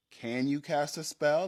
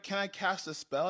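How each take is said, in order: First: Questioning game master, mildly pointed; mild challenge. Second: Higher, lightly imitated kid asking; lightly voiced niece. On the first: Retold or imitated. Game master testing her niece's request, mild challenge. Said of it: "And I was like". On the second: Niece asking the game master for a spell, lightly imitated. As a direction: ask as a hopeful player, lightly imitated. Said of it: "she was like".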